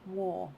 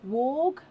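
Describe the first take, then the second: First: The name ends without a g sound. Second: The name ends with a g sound. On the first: The speaker calls it right. "Pronounced War" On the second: The speaker calls it wrong. "is it pronounced Warg?"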